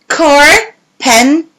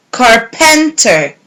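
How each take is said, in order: First: Slow: car-pen-ter; syllable by syllable. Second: Said in the usual way. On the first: Shown as a demonstration. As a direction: split carpenter into parts. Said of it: "match the syllables". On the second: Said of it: "Match the three parts together".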